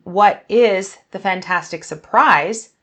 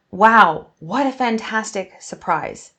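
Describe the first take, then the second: First: "What is the fantastic surprise?" asked slowly with a rise on the end; a genuine curious question, rising; questioning tune. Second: A loud burst on "Wow", then "what a fantastic surprise" falling; exclaiming. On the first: Teacher showing a real question, rising. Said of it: "I'm not asking". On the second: Teacher showing an exclamation, delighted. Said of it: "I'm exclaiming". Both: Shown as a demonstration.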